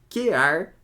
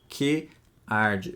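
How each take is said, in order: First: The two words merge into one syllable. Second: The two words are separated by a pause. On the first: The speaker calls it right. "O quear vira uma sílaba só" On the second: The speaker calls it wrong. "Eu não leio o poema que arde. Eu não faço essa pausa"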